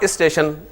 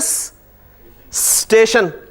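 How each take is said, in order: First: An extra i vowel is added before the s. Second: The word starts directly with the s-t cluster. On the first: It is how people from Karachi say it. "इसके शुरू में इसे pronounce करने के लिए एक आई लगा लिया" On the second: It is how people here say it. "हम इसे बोल ही लेते हैं जी स्टेशन"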